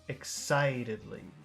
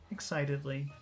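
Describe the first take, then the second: First: The word is said with strong, drawn-out emphasis. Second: The word is said plainly, without extra emphasis. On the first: "Focus excitedly" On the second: "Normal excitedly"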